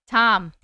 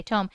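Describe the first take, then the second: First: Tom with a short open vowel. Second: Tome with a long O. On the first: Streamer settles on the easier name, short-O Tom. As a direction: say Tom the common way, rhyming with bomb. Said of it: "That is much easier to say". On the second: Streamer works out a viewer's name, long-O Tome. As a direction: say Tome to rhyme with home. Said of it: "That's what I was gonna say". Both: Shown as a demonstration.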